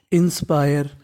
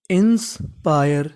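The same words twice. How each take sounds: First: Said in the usual way. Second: inspire drawn out slowly, syllable by syllable; slow sounding out. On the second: Shown as a demonstration. Teacher to students slowly sounding out inspire. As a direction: blend inspire slowly for beginners. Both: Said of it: "तो meaning बन गई".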